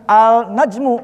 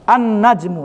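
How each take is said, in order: First: The L is pronounced before the N. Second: The L is dropped and the N is doubled. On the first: The speaker calls it wrong. "dibacanya bukan al an, al-najmu, bukan" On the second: The speaker calls it right. "langsung aja"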